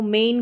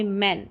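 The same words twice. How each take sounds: First: मेन with a long "ay" vowel, like main; wrong long vowel. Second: मैन with a short open "a", as in man; short A sound. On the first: Teacher showing learners what not to read, मेन with long "ay". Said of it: "मेन करके नहीं पढ़ेंगे". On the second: Teacher correcting the reading for learners, मैन with short "a". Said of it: "short sound रहेगा". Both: Shown as a demonstration.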